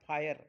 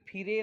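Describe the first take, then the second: First: The vowel sounds like 'eye'. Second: The vowel sounds like short 'i'. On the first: The speaker calls it right. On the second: The speaker calls it wrong.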